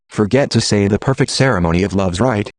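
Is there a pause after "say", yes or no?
no. It runs on without stopping after "say".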